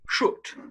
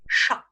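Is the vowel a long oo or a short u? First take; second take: long oo; short u. First: The vowel is a long oo sound. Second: The vowel is a short u sound. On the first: "pronounced with a long oo sound" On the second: "pronounced with the short U sound"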